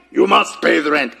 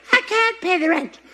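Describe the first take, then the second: First: Mock villain demanding rent; hammed-up melodrama villain; sneering panto villain. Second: High helpless damsel voice; damsel in distress. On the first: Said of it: "This is supposed to be a mustache". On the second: Acted. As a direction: wail it like a melodrama heroine. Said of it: "This is a hair bow".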